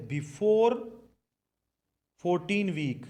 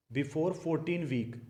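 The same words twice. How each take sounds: First: Said in the usual way. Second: Very slow, every word spaced out; slow dictation. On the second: Shown as a demonstration. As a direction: spell it out slowly so they can write it down. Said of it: "मतलब चौदह week से पहले पहले".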